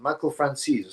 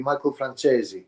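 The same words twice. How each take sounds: First: Said in the usual way. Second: "Francesi" said the Italian way, with a "ch" sound; Italian pronunciation. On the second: Shown as a demonstration. To chat, correcting the name with an Italian "Francesi". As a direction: give "Michael Francesi" its Italian ring. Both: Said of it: "so it would be Michael Francesi".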